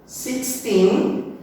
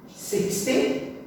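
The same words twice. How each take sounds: First: "Sixteen" with a strong rising second syllable; six-TEEN, end-stressed. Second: "sixty" with a short, weak final syllable; SIX-ty, front-stressed. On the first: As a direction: lift and stretch the end of "Sixteen". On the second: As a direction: lean on the start of "sixty". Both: Shown as a demonstration. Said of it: "Mesma coisa no nosso".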